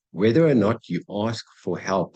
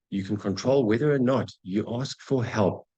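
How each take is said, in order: First: Whether hit louder at the start of the repeat; louder emphatic restatement leaning on Whether; stress on Whether. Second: Said in the usual way. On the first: Shown as a demonstration. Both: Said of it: "that's a biggie".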